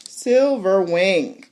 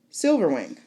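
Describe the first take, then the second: First: Drawn-out reveal. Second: Said in the usual way. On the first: Shown as a demonstration. Building up the dragon's entrance, slow dramatic Silverwing. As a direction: savor the name Silverwing slowly. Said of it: "dragon name drawn out". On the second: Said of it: "dragon name repeated".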